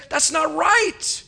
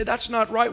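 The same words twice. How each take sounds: First: Slow, drawn-out "That's not right" with a higher lean on "right"; emphatic protest. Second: Said in the usual way. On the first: Acted. Preacher voicing a crowd's protest, slow and emphatic. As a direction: let "right" ring out slowly in protest.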